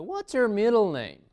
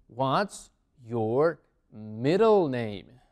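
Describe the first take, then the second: First: Higher, louder, words run together; teacher's livelier repeat, less drawn out; connected model question. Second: Very slow, word by word; spaced-out, deliberate language-teacher delivery; slow teaching model. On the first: Teacher repeats question more fluently. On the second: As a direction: stretch out each word for learners. Teacher models new question slowly. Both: Shown as a demonstration.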